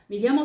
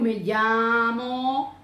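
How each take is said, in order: First: All syllables are spoken with equal length. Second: One syllable is drawn out longer than others. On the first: The speaker calls it right. "Eu não fico prolongando uma e outra" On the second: The speaker calls it wrong. "Eu não fico"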